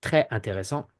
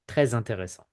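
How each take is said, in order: First: Très intéressant with no Z; French without liaison. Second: Très intéressant linked with Z, tré-zintéressant; French liaison with Z. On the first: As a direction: leave très apart from intéressant. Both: Shown as a demonstration. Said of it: "So I repeat".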